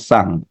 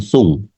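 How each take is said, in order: First: The vowel is an open 'ah'-like sound. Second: The vowel is a rounded 'oo'-like sound. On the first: The speaker calls it right. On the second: The speaker calls it wrong.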